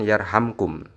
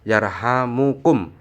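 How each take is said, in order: First: No vowel is heard between the m and k. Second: A vowel is heard between the m and k. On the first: It answers a command. The speaker calls it wrong. "bukan yarhamkum" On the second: It is a sentence of prayer. The speaker calls it right. "lebih utama membaca yarhamukum"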